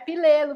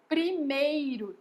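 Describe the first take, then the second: First: The 'pr' cluster and 'r' sound become 'l'. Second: The 'pr' cluster and 'r' sound are kept. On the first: The speaker calls it wrong. "não é pilelo" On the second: The speaker calls it right. "é primeiro"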